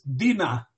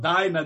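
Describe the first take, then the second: First: The first syllable does not sound like 'dino'. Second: The first syllable sounds like 'dino' in dinosaur. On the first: The speaker calls it right. "in my pronunciation, is Dina" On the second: The speaker calls it wrong. "Not Dinah. That sounds like dinosaur"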